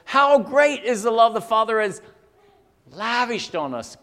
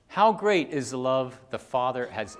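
First: "How great" exclaimed high and loud, easing by "lavished on us"; exclamation. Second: Said in the usual way. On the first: Shown as a demonstration. Preacher reading the verse as an exclamation, exclaimed. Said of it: "It ends with an exclamation point". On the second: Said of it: "this isn't a question".

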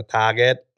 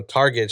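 First: "Target" Thai-accented as TAH-get; Thai-accented "Target", lifted at the end. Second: Said in the usual way. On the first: Shown as a demonstration. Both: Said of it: "if I say it in a Thai accent".

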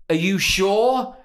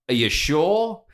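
First: Slow, drawn-out "Are you sure?" said a little higher; slow pointed question. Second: Said in the usual way. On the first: Retold or imitated. Pointedly slow question to the drive-thru woman. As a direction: drag out "Are you sure?" to make her doubt. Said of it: "I said to her". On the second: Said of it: "normally I go".

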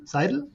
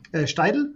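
First: "Seidel" with a soft Z sound and two syllables, high questioning rise; "Seidel" said right as ZAI-del, rising; corrected name pronunciation. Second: "Steidl" with a t after the S, hesitant rising question; "Steidl" said wrongly as Schteidl; wrong name pronunciation. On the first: Shown as a demonstration. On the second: Retold or imitated. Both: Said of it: "Seidel ist richtig".

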